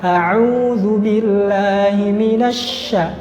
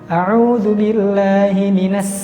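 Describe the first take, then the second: First: The last consonant is a thick, airy 'sh'. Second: The last consonant is a thin, hissing 's'. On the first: The speaker calls it right. "agak ditambahkan udara yang keluar dari mulut. Kemudian ditebalkan" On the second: The speaker calls it wrong. "Kalau ditipiskan dan berdesis itu pasti larinya ke sin"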